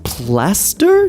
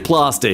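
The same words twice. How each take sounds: First: It is said in a neutral, American-like accent. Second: It is said in an Australian accent.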